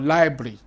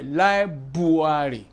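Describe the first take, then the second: First: No extra vowel is inserted inside the word. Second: An extra vowel is inserted inside the word. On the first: The speaker calls it right. "Inside of library" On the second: The speaker calls it wrong. "they will insert a vowel where there is no vowel"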